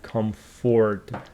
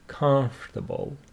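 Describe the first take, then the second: First: The O after 'comf' is clearly pronounced. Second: The O after 'comf' is silent. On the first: The speaker calls it wrong. "We don't say" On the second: The speaker calls it right. "This O here is silent"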